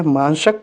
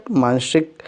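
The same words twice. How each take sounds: First: मानसक said as written, without the i vowel; मानसक read flat, as a misspelling; wrong spelling read. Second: मानसिक said with the i vowel in the middle; मानसिक read clearly as the correct spelling; correct form. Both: Shown as a demonstration.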